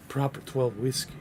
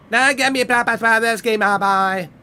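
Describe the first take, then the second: First: Said in the usual way. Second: Loud, higher bossy tough-guy voice; mock tough guy. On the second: Streamer hamming a bossy hard man, loud and high. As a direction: bark the order like a swaggering hard man.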